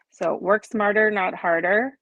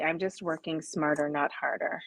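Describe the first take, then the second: First: Said in the usual way. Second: Softer, self-amused aside; softer muttered mantra. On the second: Shown as a demonstration. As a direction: repeat the motto softer, half to yourself. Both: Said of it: "My mantra".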